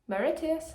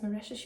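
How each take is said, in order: First: The name is pronounced in a garbled, nonstandard way. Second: The name is pronounced in the usual standard way. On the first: The speaker calls it wrong. "I was pronouncing it horrifically" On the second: The speaker calls it right. "that's Mauritius, you fanny"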